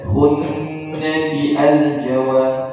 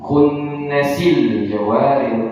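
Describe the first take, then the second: First: The 'al' is said separately, with its glottal onset. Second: The 'al' is joined smoothly onto the previous word. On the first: The speaker calls it wrong. "jangan terbaca khunnasi al jawar" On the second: The speaker calls it right. "hamzah wasal tidak aktif, tidak terbaca hamzahnya, langsung ke lamnya"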